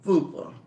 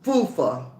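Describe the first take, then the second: First: The second consonant is a p sound. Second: The second consonant is an f sound. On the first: The speaker calls it right. "you better say FUPA" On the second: The speaker calls it wrong. "am I pronouncing it right?"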